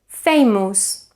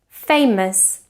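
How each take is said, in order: First: The unstressed vowel is a full vowel. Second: The unstressed vowel is a schwa. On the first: The speaker calls it wrong. "we shouldn't say" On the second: The speaker calls it right. "we should produce a schwa in the unstressed syllables"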